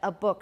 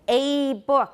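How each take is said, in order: First: The article is said in its reduced form. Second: The article is said in its full form. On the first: It is ordinary, unemphatic speech. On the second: The speaker is being emphatic. "if I want to be very emphatic"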